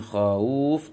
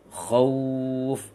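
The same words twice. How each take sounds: First: The vowel after kh is unrounded. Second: The vowel after kh is rounded. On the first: The speaker calls it wrong. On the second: The speaker calls it right. "kha tambah suara u, menyongkan bibirnya"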